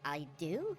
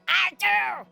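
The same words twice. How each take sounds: First: The voice rises at the end like a question. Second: The voice falls firmly at the end.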